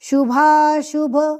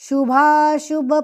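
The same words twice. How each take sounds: Both takes have the same delivery.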